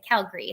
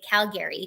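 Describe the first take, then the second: First: The syllables are reduced, not said as spelled. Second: Every syllable is pronounced fully, as spelled. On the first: The speaker is from the city. The speaker calls it right. "whereas we say Calgary" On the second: The speaker is not from the city. The speaker calls it wrong. "because that's how it's spelled"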